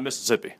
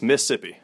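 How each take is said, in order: First: "Mississippi" with all four syllables, "Miss-iss-ippi"; full pronunciation, as counterexample. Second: "Mississippi" shortened to "Missippi", one syllable dropped; local pronunciation. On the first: Mississippi native showing the host what not to say, full four-syllable "Mississippi". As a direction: sound out every syllable of "Mississippi". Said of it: "not Mississippi". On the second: Mississippi native correcting the host, local pronunciation "Missippi". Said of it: "there's only two S's in Mississippi". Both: Shown as a demonstration.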